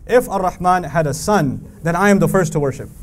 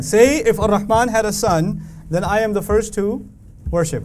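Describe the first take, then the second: First: Said in the usual way. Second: "Say" and "first" leaned on, then a pause before "worship"; said again with emphasis. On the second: Shown as a demonstration. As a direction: lean on "Say", lift "first", hold a beat before "worship". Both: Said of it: "I'll say that again".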